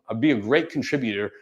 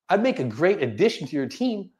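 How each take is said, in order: First: The voice falls at the end. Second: The voice rises at the end.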